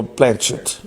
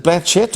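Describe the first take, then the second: First: "Blanchett" as BLAN-shett. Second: "Blanchett" as BLAN-tchett, crisp ch as in "church". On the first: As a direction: say "Blanchett" with a soft sh, no t before it. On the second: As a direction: say "Blanchett" with a clear t before the sh. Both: Shown as a demonstration. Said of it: "is that the way you say it?".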